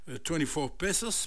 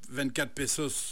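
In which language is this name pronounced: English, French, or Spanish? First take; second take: English; French. First: The name is pronounced the English way. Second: The name is pronounced the French way. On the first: "On peut le prononcer en anglais" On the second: "on peut prononcer 24 pesos en français"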